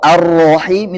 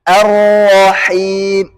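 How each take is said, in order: First: The vowel after r sounds like o. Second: The vowel after r sounds like a. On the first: The speaker calls it wrong. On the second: The speaker calls it right.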